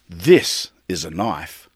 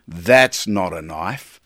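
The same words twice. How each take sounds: First: Slow and lower, landing hard on This; a light Dundee boast, proud and deliberate; Crocodile Dundee. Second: Slow, lower, dismissive That's not a knife; lightly voiced Dundee, scoffing and slow; Crocodile Dundee. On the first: Retold or imitated. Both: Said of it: "Maybe I'm the Crocodile Dundee of coffee".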